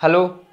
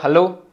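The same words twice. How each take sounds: Both takes have the same delivery.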